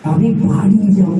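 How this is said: The stress falls on the word বাড়ি. I will go home, not anywhere else. "বাড়ি"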